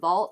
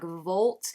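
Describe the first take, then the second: First: The vowel sounds like the one in 'all'. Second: The vowel sounds like the one in 'old'. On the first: "Instead of saying vault" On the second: "he made it like volt"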